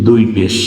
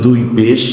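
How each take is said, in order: No difference in how they are said.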